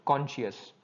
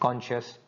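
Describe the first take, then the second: First: The ending is said as two syllables, shee-us. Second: The ending is said as one syllable, shus. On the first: The speaker calls it wrong. "Most of the people they pronounce it like conscious" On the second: The speaker calls it right. "they pronounce like shus"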